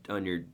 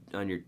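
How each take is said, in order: Both takes have the same delivery.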